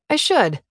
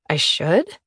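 First: It is said firmly and strongly. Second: It is said tentatively, unsure.

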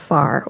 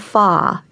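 First: The final r sound is pronounced. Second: The final r sound is dropped.

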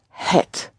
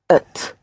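First: It is said in full with an h. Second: It is reduced to ut without the h. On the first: "spelled H-E-T" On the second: "in everyday colloquial language, it is usually pronounced ut"

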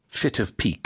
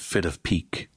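First: The T is said as a crisp, clear stop. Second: The T is said soft, like a quick D. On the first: The speaker calls it right. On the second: The speaker calls it wrong.

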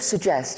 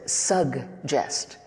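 First: The word is said the British way. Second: The word is said the American way. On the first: This is the pronunciation the producer expected. "Instead of suggest" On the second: This is how Americans say it. "it almost sounded like you said suggest. ... Because that's how we say it"

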